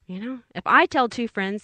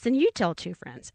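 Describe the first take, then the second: First: I leaned on, light commercial echo; stress on I. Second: "you" leaned on, falling close; stress on YOU. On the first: Echoing the old ad to listeners, stress on "I". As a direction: push the word "I" a little. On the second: Quoting the commercial to listeners, stress on "you". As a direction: hit "you" like the old ad line. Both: Retold or imitated. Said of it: "Remember that commercial?".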